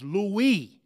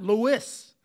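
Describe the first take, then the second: First: Louis said "LOO-ee", silent s; correct pronunciation. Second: Lewis said "LOO-iss", s sounded; wrong pronunciation. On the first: Teacher showing the class the correct pronunciation, careful Louis. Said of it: "the correct pronunciation is Louis". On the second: Teacher showing what not to say, deliberate Lewis. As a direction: slowly say Lewis with a clear final s. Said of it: "the correct pronunciation is Louis, not Lewis". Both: Shown as a demonstration.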